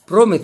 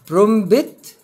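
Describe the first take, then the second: First: The p sound before t is silent. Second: The p sound before t is pronounced. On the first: The speaker calls it right. "برومت على طول" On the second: The speaker calls it wrong. "هقول إيه برومبت ولا برومت؟"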